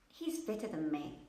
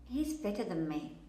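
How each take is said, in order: The two takes are said the same way.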